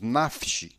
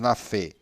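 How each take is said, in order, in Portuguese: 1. Nenhuma vogal é pronunciada depois do f. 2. Uma vogal curta é pronunciada depois do f. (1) "dizemos nafsh" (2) "Não dizemos na fé"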